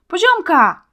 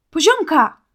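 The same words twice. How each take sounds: First: A high, loud, desperate call of Poziomka; shout. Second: A high, loud call of Poziomka; shout. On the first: Boy calls his bewitched friend from the thicket, desperate loud shout. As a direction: scream her name, pushing through the bushes. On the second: Boy calls out to his friend as he runs to the light, loud shout. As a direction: call her name across the forest. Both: A narrator's reading. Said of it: "krzyknął Marcin".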